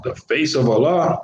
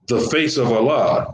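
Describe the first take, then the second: First: "Allah" rising in disbelief at the end; incredulous question. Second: Said in the usual way. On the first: Shown as a demonstration. Teacher mocking a literal translation, incredulous rising question. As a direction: ask "The face of Allah?" as if the idea can't be right.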